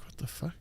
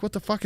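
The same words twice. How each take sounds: First: Muttered under breath. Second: Squeaky, high-pitched incredulous what the fuck; high-pitched disbelief. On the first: Cashier muttering at the screen, quiet disbelief. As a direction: mumble it to yourself in disbelief. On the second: Cashier watching cops search the cooler, high-pitched disbelief. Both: Retold or imitated.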